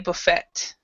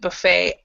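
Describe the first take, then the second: First: The final T sound is pronounced. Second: The final T sound is silent. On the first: This is the British way of saying it. "Other people will say buffet" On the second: This is the American way of saying it. "American English, we will pronounce it buffet"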